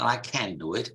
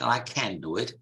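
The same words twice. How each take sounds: First: It is said in a northern English or American accent. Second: The same.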